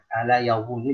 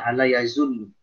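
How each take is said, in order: First: The consonant is a heavy tongue-between-teeth sound. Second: The consonant is a plain z sound. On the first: The speaker calls it right. "hati-hati ya" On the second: The speaker calls it wrong. "jangan dibaca ala yazunnu"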